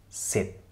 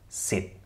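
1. Das Wort endet sauber auf dem t-Laut. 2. Das Wort endet sauber auf dem t-Laut.

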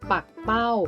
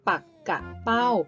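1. ออกเสียงสองพยางค์ 2. ออกเสียงสามพยางค์ (1) "การอ่านออกเสียงแบบที่ 1 ออกเสียงว่า ปักเป้า" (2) "การอ่านออกเสียงแบบที่ 2 ให้ออกเสียงว่า ปักกะเป้า"

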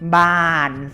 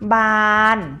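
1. พยางค์นี้มีเสียงต่ำ 2. พยางค์นี้มีเสียงกลาง (1) "บานเสียงเอก" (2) "บานคือเสียงสามัญ"

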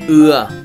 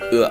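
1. Nguyên âm được kéo dài. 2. Nguyên âm được cắt ngắn. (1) "ưa dài" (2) "Ưa ngắn"

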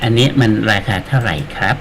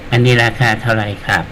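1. พูดด้วยสำเนียงไทยมาตรฐาน มีวรรณยุกต์ไทยครับ 2. พูดด้วยสำเนียงเขมร วรรณยุกต์แบนราบครับ (1) "แต่ถ้าเราเนี่ย" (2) "แต่ถ้าเป็นคนเขมรนี่"

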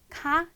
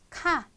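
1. 이 단어에서 음높이가 올라가요. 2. 이 단어에서 음높이가 올라가지 않아요. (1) "질문일 때는 올라가는 음으로" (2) "평서문일 때는 카"

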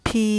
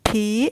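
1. คำว่า phi ออกเสียงเสียงสามัญ 2. คำว่า phi ออกเสียงเสียงสูง (1) "คำว่าพีอยู่ในเสียงสามัญ" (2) "มีเสียงวรรณยุกต์ตี"

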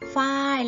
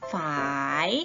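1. เสียงตกจากสูงลงต่ำ 2. เสียงต่ำแล้วขึ้นตอนท้าย (1) "เสียงโท" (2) "เสียงจัตวาคือ"

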